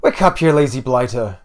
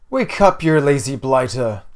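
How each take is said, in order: First: Put-on loud Irish-accented wake-up call; scolding mother with an odd Irish lilt; weird Irish accent. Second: Rousing call. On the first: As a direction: rouse a lazy son in a rough Irish accent. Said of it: "a weird Irish accent". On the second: First take, mother rousing her son. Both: A narrator's reading.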